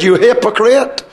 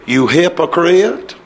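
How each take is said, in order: First: Firm, emphatic accusation at full preaching voice; upset rebuke. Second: Low, slow, softened mock accusation; hammed-up gentle chiding, lower and slower; mock mild rebuke. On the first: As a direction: demonstrate a blunt, heated denunciation. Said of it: "I tell you the way he said it". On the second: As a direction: draw it out low, as if unwilling to offend. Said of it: "He didn't say it that way". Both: Shown as a demonstration.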